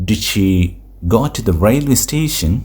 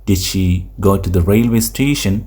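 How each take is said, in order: No difference in how they are said.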